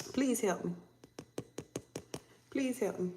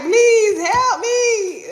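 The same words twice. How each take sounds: First: Much softer, understated begging; soft plea. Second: High, loud, drawn-out bawl; wailing plea. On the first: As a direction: plead quietly under your breath. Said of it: "now they in this energy of". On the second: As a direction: beg in a hammed-up crying scream. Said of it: "Now somebody like". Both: Acted.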